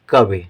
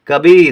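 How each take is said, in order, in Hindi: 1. आखिरी ई छोटी बोली जाती है। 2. आखिरी ई लंबी बोली जाती है। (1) "छोटी की मात्रा तो कवि पढ़ेंगे" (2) "कभी यानी कि बड़ी का उच्चारण हो जाएगा"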